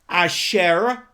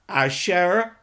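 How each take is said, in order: The two takes are said the same way.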